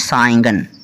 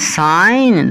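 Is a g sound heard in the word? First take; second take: yes; no. First: The word has a g sound. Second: The word has no g sound. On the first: The speaker calls it wrong. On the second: The speaker calls it right.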